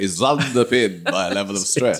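It is said in an odd put-on voice. "it sounded like you were going"

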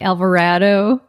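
The A vowels carry a Midwestern accent colouring. "occasionally the Midwestern comes out. I'll say like"

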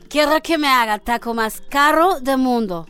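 It is said in a Russian accent.

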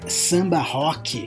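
It is pronounced with Brazilian Portuguese sounds.

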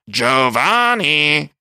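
It is yelled as a mocking heckle.

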